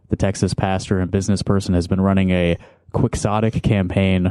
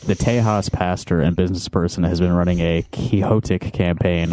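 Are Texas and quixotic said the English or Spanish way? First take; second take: English; Spanish. First: Texas and quixotic are said the English way. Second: Texas and quixotic are said the Spanish way.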